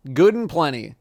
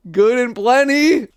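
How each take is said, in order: First: Said in the usual way. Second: High, loud, slow mocking repeat; mocking disgust. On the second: Real, not acted. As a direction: sneer the name back.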